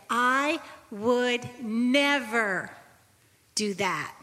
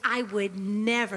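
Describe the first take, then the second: First: "I would never" stretched very slow with weight on "never"; slow, emphatic "I would never do that"; firm inner vow. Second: "I would never" slowed, "never" stressed and falling; slower, firm "I would never"; emphatic denial. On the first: Retold or imitated. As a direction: draw out "I would never" slowly, leaning on "never". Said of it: "in my heart I said". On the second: Acted. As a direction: press down on "never" with a falling tune.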